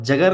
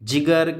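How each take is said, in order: First: The first syllable has an 'a' vowel. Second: The first syllable has an 'i' vowel. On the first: The speaker calls it wrong. "जगर नहीं पढ़े उसको दो ज़बर के साथ" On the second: The speaker calls it right. "एक ज़ेर दूसरे ज़बर के साथ पढ़े"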